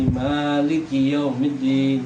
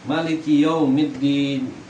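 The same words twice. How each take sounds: First: The first vowel of maliki is drawn out long. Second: The first vowel of maliki is short.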